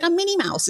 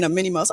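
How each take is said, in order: First: Lightly done high squeaky Minnie voice, said softly; a prank caller's high, soft cartoon mouse voice; mock Minnie Mouse voice. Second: Insistent, quiet "I'm Minnie Mouse" at normal pitch; hushed repeat. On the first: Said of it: "He was like". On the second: Retold or imitated. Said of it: "he kept saying".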